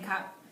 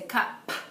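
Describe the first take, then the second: First: The final P sound is said normally. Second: The final P sound is strongly exaggerated. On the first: "instead of saying cup" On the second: "exaggerating the sound at the end of the word"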